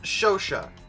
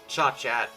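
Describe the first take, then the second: First: The name ends on an open 'sha' sound. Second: The name ends with a hard 't' sound. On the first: The speaker calls it right. "apparently that's pronounced Shosha" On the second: The speaker calls it wrong. "I would have called it Cha-Chat"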